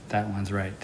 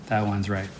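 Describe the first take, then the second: Both takes have the same delivery.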